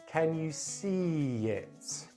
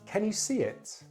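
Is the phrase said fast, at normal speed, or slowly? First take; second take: slowly; fast. First: The phrase is said very slowly. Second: The phrase is said quite quickly. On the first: "Then I'm going to say it very slowly" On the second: "I'm going to say them quite quickly"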